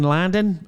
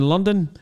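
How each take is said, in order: First: The word is said in an Australian accent. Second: The word is said in an ordinary accent.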